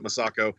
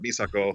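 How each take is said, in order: First: The name is said with a relaxed American pronunciation. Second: The name is said with a Japanese-style pronunciation. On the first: The speaker calls it right. "like English pronunciations of them" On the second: The speaker calls it wrong. "I didn't want it to have that thing"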